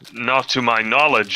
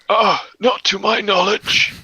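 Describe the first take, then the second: First: It is said in a normal voice. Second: It is said in an old-person voice.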